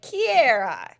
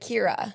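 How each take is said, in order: First: The name has an extra vowel in it. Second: The name has no extra vowel in it. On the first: This is how speakers with a Southern accent say it. The speaker calls it wrong. "you kind of add like an extra vowel in there" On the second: This is how the name is really said. The speaker calls it right. "it's really just Kira"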